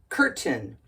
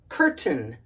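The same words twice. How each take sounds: Both takes have the same delivery.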